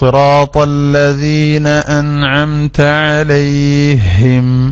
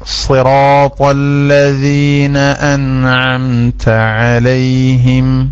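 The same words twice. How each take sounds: First: The h is doubled and the ya is lengthened. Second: The h is light and the ya is short. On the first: The speaker calls it wrong. "ഇങ്ങനെ രണ്ട് തെറ്റ്" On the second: The speaker calls it right. "എത്ര സുഖാണ്"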